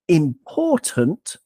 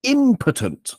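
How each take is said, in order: First: "important" with the second syllable drawn out; stress on second syllable. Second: "impotent" with IM drawn out, the rest falling away; stress on first syllable. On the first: Podcaster explaining English stress to co-host, second-syllable stress. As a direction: say "important" slowly, leaning on POR. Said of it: "obviously the second syllable". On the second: Podcaster explaining English stress to co-host, first-syllable stress. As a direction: say "impotent" slowly, hitting IM. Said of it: "on the first syllable". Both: Shown as a demonstration.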